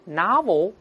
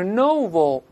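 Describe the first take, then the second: First: "novel" with O opened to "ah"; American pronunciation. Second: "novel" with a round O in the first syllable; British pronunciation. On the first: Teacher showing the odd American vowel in "novel", NAH-vul, American pronunciation. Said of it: "一个O变成啊". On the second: Teacher showing how the British read "novel" with round O, British pronunciation. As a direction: say "novel" the British way, NOH-vul. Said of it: "英国人读是novel". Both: Shown as a demonstration.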